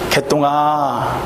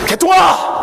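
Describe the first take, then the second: First: The name is called in a small, quiet voice. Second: The name is shouted in a loud voice. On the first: "자그마한 목소리로" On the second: "제가 일부러 소리 친 거예요"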